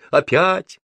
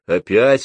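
First: «Опять!» thrown back very high; «Опять!» much higher-pitched, emphatic and rising; emphatic reply. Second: «Опять?» as a loud question with rising end; «Опять?» raised in volume, moderate pitch, questioning. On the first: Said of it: "ответила Груша". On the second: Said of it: "спросила крашеная тётка". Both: A narrator's reading.

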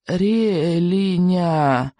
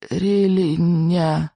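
First: Slow faint plea; desperate babbling. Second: Slow, faint desperate mumble; desperate babbling. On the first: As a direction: drag the word out weakly. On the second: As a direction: struggle to get the word out. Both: A narrator's reading. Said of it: "в отчаянии лепетал Икинг".

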